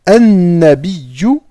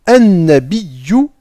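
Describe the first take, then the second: No difference in how they are said.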